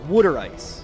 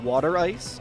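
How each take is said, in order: First: Water is said as wooder, Philadelphia style. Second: Water is said with a general American pronunciation. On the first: "Here in Philly, we call it wooder ice" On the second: "I usually say water"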